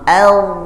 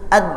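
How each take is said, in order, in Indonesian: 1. Konsonan akhir menutup pelan-pelan. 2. Konsonan akhir menutup tiba-tiba. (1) "saat disukunkan pelan-pelan bunyi menutupnya" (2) "tidak langsung ad ad. Nah, kalau itu cenderungnya huruf dal"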